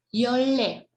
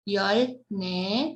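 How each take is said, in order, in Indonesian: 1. Suku kata kedua dimulai dengan bunyi l. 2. Suku kata kedua dimulai dengan bunyi n.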